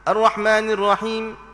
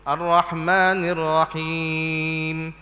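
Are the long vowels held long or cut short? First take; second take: short; long. First: The long vowels are clipped very short. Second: The long vowels are held for their full length. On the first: The speaker calls it wrong. "kita baca nak pendek-pendek gitu" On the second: The speaker calls it right. "kena perhati moleklah sini"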